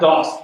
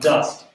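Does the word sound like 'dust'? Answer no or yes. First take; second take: no; yes. First: The vowel does not sound like 'dust'. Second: The word sounds exactly like 'dust'. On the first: The speaker calls it wrong. "not dost" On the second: The speaker calls it right. "but dust"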